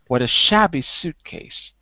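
The strongest stress falls on 'shabby'. "The stress is shab, and the second stress, the lower stress, is on suit"

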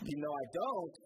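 It sounds emphatic, like I really don't.

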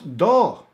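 The final s is dropped; the vowel is open. "decimos do"

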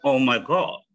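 The vowel in god is a rounded o. "kalau orang British bilang OMG"

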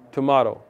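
It is said in an English accent. "In England, they say tomato"

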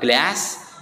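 It is said with an American accent. "Di American English dibaca glass"

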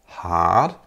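The r after the vowel is silent. "Und dieses R, wie ihr schon hört, entfällt"

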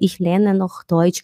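The voice sounds timid and weak. The speaker seems insecure about their ability. The speaker calls it wrong. "isso você já mostra uma fraqueza"

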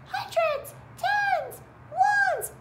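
The words are said in a high squeaky voice. "Now squeaky voice"

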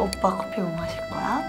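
It is said calmly with a gentle, sweet tone. "약간 좀 차분한데 좀 약간 애교 있는 목소리로"

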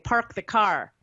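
It is said with R after vowels.

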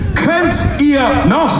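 The question is asked in a sincere tone. The question is meant seriously.

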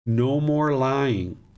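The voice sounds firm and serious. The speaker is really serious and wants attention. "This is the tone and the tempo has changed"

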